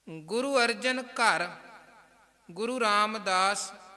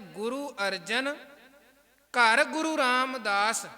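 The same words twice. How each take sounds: First: The pause comes right after the word ghar. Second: The pause comes right before the word ghar. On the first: A guru was born in the other guru's house. The speaker calls it wrong. "Guru Arjan Sahib ਦੇ ਨਾਲ ਘਰ ਸ਼ਬਦ ਦਾ ਉਚਾਰਨ ਕਰਕੇ comma ਲਾਏ" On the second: A devotee appeared in the other guru's house. The speaker calls it right. "ਬੜੇ ਧਿਆਨ ਦੇ ਨਾਲ ਕੌਮਾ ਲਗਾ ਕੇ ਵਿਸ਼ਰਾਮ ਲਗਾ ਕੇ"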